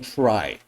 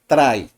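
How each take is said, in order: First: The R is a soft English R. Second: The R is rolled like a Spanish R. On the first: The speaker calls it right. "instead of saying try" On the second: The speaker calls it wrong. "People who say try"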